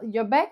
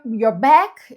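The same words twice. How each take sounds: First: The opening words are said in a normal tone. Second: The opening words are said very forcefully. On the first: The speaker calls it right. "tipo, um tom normal" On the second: The speaker calls it wrong. "eu não começaria como your, your back"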